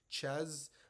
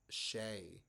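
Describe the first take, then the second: First: It is said like 'chez', ending in a z. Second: It is said like 'shay', ending in a vowel. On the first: The speaker calls it wrong. "I know a lot of you guys see it C H E Z" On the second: The speaker calls it right. "but it is pronounced Shea"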